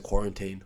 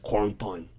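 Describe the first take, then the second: First: The word is said in a plain, ordinary accent. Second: The word is said in an exaggerated, imitated accent. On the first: This is how those people do not say it. "they don't say quarantine" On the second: This is how those people say it. "they say quarantine"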